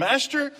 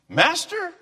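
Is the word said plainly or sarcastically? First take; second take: plainly; sarcastically. First: It is said plainly, without sarcasm. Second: It is said with a sarcastic tone.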